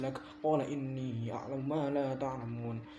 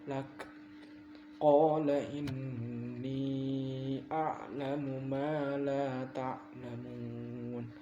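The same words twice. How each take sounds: First: It is recited quickly and hurriedly. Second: It is recited slowly and carefully. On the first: The speaker calls it wrong. "Tapi lo buru-buru" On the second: The speaker calls it right. "Pelan-pelan aja bacanya"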